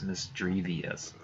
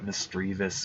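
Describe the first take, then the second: First: The name ends in a longer '-vee-us' sound. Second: The name ends in a short '-vis' sound. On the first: The speaker calls it wrong. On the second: The speaker calls it right.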